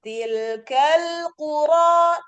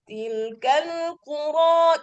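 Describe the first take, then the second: First: Slow chanted "Tilkal qura", voice focused forward in the mouth; resonance in the mouth. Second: Slow "Tilkal qura" with sound pushed up into the nose; nasal resonance. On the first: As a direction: recite "Tilkal qura" with sound resting in the mouth, not the nose. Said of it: "letakkan tangan di depan tuh lebih hangat". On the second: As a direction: recite "Tilkal qura" through the nasal passage. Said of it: "kalau naik ke hidung biasanya kurang terlalu hangat". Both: Shown as a demonstration.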